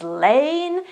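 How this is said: The vowel is long, rhyming with rain. This is the standard, most common pronunciation. The speaker calls it right. "the standard pronunciation is lane"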